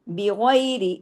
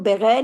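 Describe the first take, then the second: First: The word begins with 'bi' and ends in 'i'. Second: The word begins with 'ba' and ends clipped. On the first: The speaker calls it right. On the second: The speaker calls it wrong.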